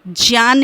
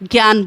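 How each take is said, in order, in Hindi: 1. शब्द की शुरुआत j की आवाज़ से होती है। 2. शब्द की शुरुआत g की आवाज़ से होती है। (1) "इसलिए उसका सही उच्चारण ज्ञान ही है" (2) "हम प्रचलन में ज्ञान बोलते हैं"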